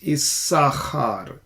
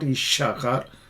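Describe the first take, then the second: First: The second consonant is pronounced as 's'. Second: The second consonant is pronounced as 'sh'. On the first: The speaker calls it right. "it's Issachar. So this is Sin" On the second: The speaker calls it wrong. "you're not going to pronounce this letter Shin. ... it's not Ishachar"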